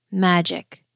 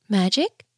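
First: "Magic" with a settled falling tune; firm falling answer. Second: "Magic?" rising as a disbelieving question; questioning rise. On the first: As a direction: drop "Magic" down as a sure reply. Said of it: "the gardener replied". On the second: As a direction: lift the end of "Magic?" in wonder. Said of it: "the queen asked through her tears". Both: A narrator's reading.

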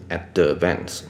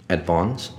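First: “advance”错念成ad-de-vance三个音节; 在“advance”的d后插一个“的”; d后多加母音. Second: “advance”念成ad-vahns两个音节; “advance”的d紧接v，后半用宽a音; d不加母音. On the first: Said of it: "D也是不用念成". (错误示范“advance”，d带元音) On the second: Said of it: "那个D也是不用念成". (念“advance”时d后不插元音) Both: Shown as a demonstration.

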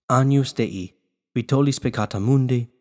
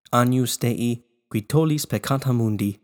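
Both takes have the same delivery.

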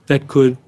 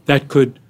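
No difference in how they are said.

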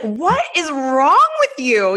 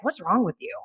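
First: Slow, high, drawn-out disbelief; mock exasperation. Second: Softer, higher questioning; retold puzzled concern. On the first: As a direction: imitate a husband at his wits' end. Husband's exasperated repeat question, retold. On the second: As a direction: imitate a husband gently puzzled. Husband's first question, retold.

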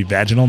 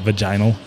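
First: "vaginal" as VAJ-uh-nul, stress up front; first-syllable stress on "vaginal", VAJ-in-ul; corrected pronunciation. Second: "vaginal" as vuh-JY-nul, stress on the middle; middle-syllable stress on "vaginal", vuh-JINE-ul; mispronunciation. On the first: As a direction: say "vaginal" with a short a, like "badge". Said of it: "It's supposed to be vaginal". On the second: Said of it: "not vaginal". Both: Shown as a demonstration.

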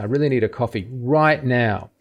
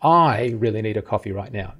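First: "right now" stressed, falling. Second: "I" hit first and hardest; all the weight on "I"; stress on I. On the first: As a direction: push "right now" hard. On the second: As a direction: punch the word "I". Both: Shown as a demonstration. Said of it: "we're emphasizing different parts".

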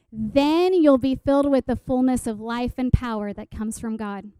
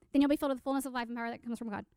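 First: Emphatic, declarative Scripture recital; verse recitation. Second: Very fast, softer gabble; freaking out. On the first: Acted. Speaker quotes the memorized promise to listeners, emphatic recitation. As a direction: launch firmly, then settle lower at the end. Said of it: "in the translation I memorized it". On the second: Retold or imitated. Giddy teen self ticks off the promise, rapid-fire muttered recital. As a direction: rush the whole verse in one breath. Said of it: "And I'm freaking out".

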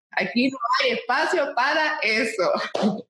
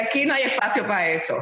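First: "Aquí no hay espacio para eso" said slowly, each word weighed; repeated slowly for emphasis. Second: Said in the usual way. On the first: Shown as a demonstration. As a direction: lento y enfático, recalcando "espacio". (repetido despacio, con peso en "espacio")

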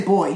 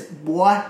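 First: Said in the usual way. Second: Put-on "boy" drawn into a Southern "bwah"; Southern accent on "boy". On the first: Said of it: "he doesn't say". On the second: Shown as a demonstration. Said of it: "That's how he says it".

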